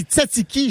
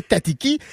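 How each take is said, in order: First: Tzatziki with a hiss after each T; proper tzatziki. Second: Tatiki with bare hard Ts; wrong tzatziki. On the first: Summing up the rule, tzatziki as tsatsiki. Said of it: "on dit tzatziki". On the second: Showing the forbidden way, tatiki with plain Ts. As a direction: say tatiki with no hiss. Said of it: "jamais tatiki". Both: Shown as a demonstration.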